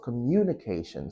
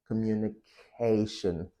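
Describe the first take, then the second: First: The stress falls away from the 'ca' syllable. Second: The stress falls on the 'ca' syllable. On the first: The speaker calls it wrong. "not communication" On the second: The speaker calls it right. "So you press K, communication"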